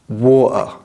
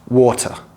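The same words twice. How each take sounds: First: The middle T sound is left out. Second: The middle T sound is clearly pronounced. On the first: "the T's in the middle of the word are not pronounced" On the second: "I recommend you pronounce all of your T's"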